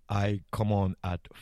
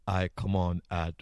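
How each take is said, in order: Both takes have the same delivery.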